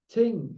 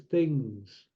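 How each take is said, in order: First: "Ting" with a hard T for th; mimicked mispronunciation. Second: "things" with a clear th at the start; proper pronunciation. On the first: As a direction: say "Ting" with a plain T, mocking the speaker. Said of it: "they don't speak correctly". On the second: Shown as a demonstration. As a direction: say "things" correctly, th rather than T. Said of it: "Speak properly, it's things".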